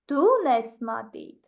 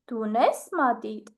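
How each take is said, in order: First: The stress is on the word du. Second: The stress is on the word unes. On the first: Asks whether it is you or someone else who has a pencil. "I will just put the stress on the word you" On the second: Asks whether you have a pencil or not. "I will stress the word have"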